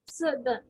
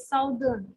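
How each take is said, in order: First: The first vowel sounds like the one in 'up'. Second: The first vowel sounds like the one in 'south'. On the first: The speaker calls it right. "When it is O U, it is sounding as oof over here" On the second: The speaker calls it wrong. "normally people read it as a south, southern"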